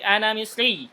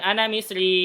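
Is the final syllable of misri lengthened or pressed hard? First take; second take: pressed; lengthened. First: The final syllable is pressed with a raised voice. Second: The final syllable is just drawn out, not pressed. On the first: The speaker calls it right. "tapi ana misri, tekan" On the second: The speaker calls it wrong. "bukan ana misri"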